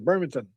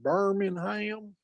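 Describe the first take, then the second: First: It is said the English, Yorkshire-area way. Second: It is said the American Southern way.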